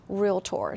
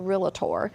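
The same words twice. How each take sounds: First: No extra vowel is added, giving two syllables. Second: An extra vowel is added, giving three syllables. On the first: The speaker calls it right. "You say realtor" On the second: The speaker calls it wrong. "You don't say docator and you don't say realtor"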